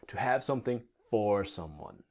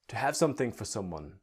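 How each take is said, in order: First: It is spoken slowly with a full 'for'. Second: It is spoken quickly with a reduced 'for'.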